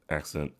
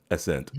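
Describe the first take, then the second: First: "Accent" with a hard k sound; the mistaken "Accent", k sound in the middle; mistaken pronunciation. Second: "Ascent" with only an s sound, no k; the corrected "Ascent", no k in the middle; corrected pronunciation. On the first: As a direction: say "Accent" with a k before the s, low and soft. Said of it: "Just in case people didn't think". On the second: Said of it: "The Ascent". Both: Shown as a demonstration.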